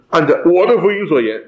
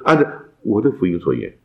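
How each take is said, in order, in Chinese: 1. 这是用骄傲、自夸的语气说的。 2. 这是用谦虚、谦卑的语气说的。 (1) "哇，保罗好了不起啊！" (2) "意思就不一样。保罗虽然很有把握，但他谦卑的说"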